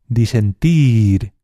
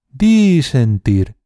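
First: The stress is on the last syllable. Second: The stress is on the first syllable. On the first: The speaker calls it right. "En este caso es la tercera opción" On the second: The speaker calls it wrong. "alargando cada sílaba"

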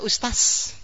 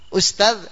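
First: The final z sound is replaced by another sound. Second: The final z sound is pronounced clearly. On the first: The speaker calls it wrong. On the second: The speaker calls it right.

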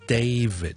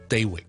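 First: The v is voiced and the final d is sounded. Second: The v and final d are not both clearly voiced. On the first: The speaker calls it right. "比较好啲嘅读法咧就系David" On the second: The speaker calls it wrong. "我哋香港人好多时候就读David 或者David"

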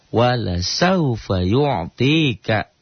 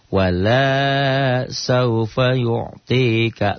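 First: The vowel in 'la' is short. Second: The vowel in 'la' is drawn out long. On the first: The giving will surely happen. The speaker calls it right. "kan tadi" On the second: The giving will not happen. The speaker calls it wrong. "lahnya jadi panjang"

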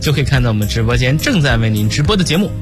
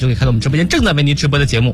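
First: The sentence is spoken at a slower pace. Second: The sentence is spoken at a fast pace. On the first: "我这个说点慢点的" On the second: "我接下来要尽量的快点语速尝试一下啊"

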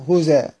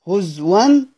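First: The hamza is dropped and its vowel moves back. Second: The hamza is replaced by a w sound. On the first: "بالنقل مع حذف الهمزة" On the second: "في الوقف هز ون بالإبدال"

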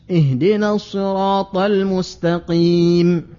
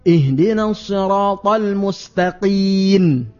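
First: The last word ends with an m sound. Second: The last word ends with an n sound. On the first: The speaker calls it right. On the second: The speaker calls it wrong.

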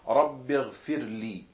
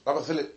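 First: The word is said slowly and calmly. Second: The word is said quickly and rushed. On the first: The speaker calls it right. "immer mit der Ruhe" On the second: The speaker calls it wrong. "nicht Rabbighfirli"

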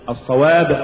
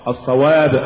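The two takes are said the same way.

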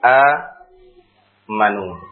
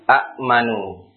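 First: The first vowel is long with no stop. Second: A glottal stop follows a short first vowel. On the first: This is the eased form actually recited. "maka ia diganti dengan huruf mad alif. Menjadi a manu" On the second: This is the original underlying form. "Aslinya seperti ini"

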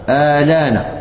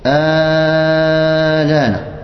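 First: The vowel is held only briefly. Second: The vowel is drawn out long. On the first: "يجوز لك أن تقصر" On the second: "يجوز لك أن تمد طولا"

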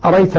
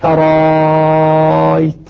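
First: The second glottal stop is dropped entirely. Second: The second glottal stop becomes a very long vowel. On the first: "الكسائي يقرأ بدون همزة ثانية" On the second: "إبدالها ألفا ... مع المد المشبع ست حركات"

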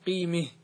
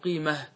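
First: The vowel before the final h leans toward e. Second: The vowel before the final h is plain a. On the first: "يجوز عند الوقف أن تميل" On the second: "كيف تقف عليها؟ بالهاء"

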